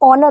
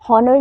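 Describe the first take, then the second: First: It begins with a vowel, no h sound. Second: It begins with an audible h sound. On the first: The speaker calls it right. "ऑनर होता है" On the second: The speaker calls it wrong. "हॉनर नहीं होता"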